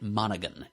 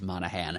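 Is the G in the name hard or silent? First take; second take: hard; silent. First: The last syllable is said with a hard G. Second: The last syllable is said without a G sound. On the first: "they all used the hard G in there" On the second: "that final syllable would be pronounced Han"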